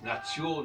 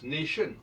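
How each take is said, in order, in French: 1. Le mot se prononce à l'allemande. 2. Le mot se prononce à l'anglaise. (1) "Les Allemands disent nation" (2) "Si on prend le cas de l'anglais"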